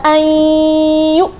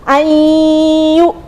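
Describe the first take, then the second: The two takes are said the same way.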